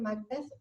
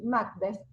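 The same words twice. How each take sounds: First: The stress is on the second syllable. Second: The stress is on the first syllable. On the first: This is the English pronunciation. "con ese acento en la segunda sílaba" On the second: This is the commonly heard pronunciation. "como se suele escuchar"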